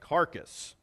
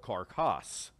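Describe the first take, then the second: First: The name is said the plain English way. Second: The name is said in a French-style way.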